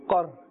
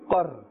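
Both takes have the same delivery.

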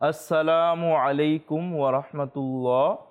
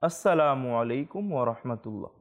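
First: The greeting is said in a louder voice. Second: The greeting is said in a softer voice. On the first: This is the first greeting of the prayer's end. "প্রথমবার যখন সালাম ফেরাবে সেটার তুলনায়" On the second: This is the second greeting of the prayer's end. "দ্বিতীয়বার সালাম ফেরানোটা নিম্ন স্বরে হতে হবে"

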